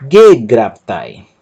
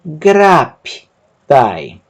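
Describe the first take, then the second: First: Slow but joined, stress on first syllable; slowed demo. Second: Very slow, syllables apart; syllabified slow demo. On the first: Teacher repeats the word more fluently, stressing GE. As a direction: say it whole, stressing GE. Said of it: "Perceba que a sílaba tônica". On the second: Teacher sounds out the word very slowly for students. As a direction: stretch each syllable for learners. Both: Shown as a demonstration.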